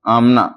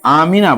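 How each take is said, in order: First: The middle i vowel is dropped. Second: A clear i vowel is said in the middle. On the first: This is the everyday Urdu form. The speaker calls it wrong. "Urdu में जब बोला जाता है तो बोल दिया जाता आमना" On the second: This is the original Arabic form. The speaker calls it right. "ठीक बात यह है कि आमिना बोला जाए"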